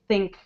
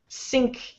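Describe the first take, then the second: First: The word begins with a soft TH sound. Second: The word begins with a hissing S sound. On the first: "I don't hear think" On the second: "your T H sound actually sounds a little bit like an S"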